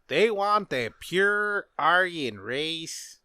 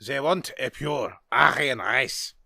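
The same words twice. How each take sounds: First: Put-on slow, half-hearted German accent; a failed stab at a German accent, drawn out; bad German accent. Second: Put-on slow German accent with 'ze' for 'they'; retry the line in a thicker German accent. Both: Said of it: "That was a bad accent".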